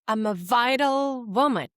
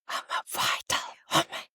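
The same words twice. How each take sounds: First: It is spoken in a normal voice. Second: It is spoken in a whisper.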